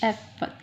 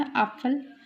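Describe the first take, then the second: First: एप्पल said as Äpfel, opening on "eh"; umlaut vowel. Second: एप्पल said as Apfel, opening on "ah"; plain आ vowel. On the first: Teacher giving the umlaut plural, एप्पल with "eh" first. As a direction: begin एप्पल with a short "eh" sound. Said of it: "उस पे umlaut लगा देते हैं". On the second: Teacher giving the singular for apple, एप्पल with "ah" first. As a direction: begin एप्पल with an open "ah" sound. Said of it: "वो ये वाला आ होता है". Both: Shown as a demonstration.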